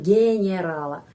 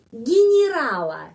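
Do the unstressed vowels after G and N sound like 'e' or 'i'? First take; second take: e; i. First: The unstressed vowels sound like 'e'. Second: The unstressed vowels sound like 'i'. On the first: The speaker calls it wrong. "Kita tidak mengucapkan Generala" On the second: The speaker calls it right. "orang Rusia mengucapkan di sini I, di sini I"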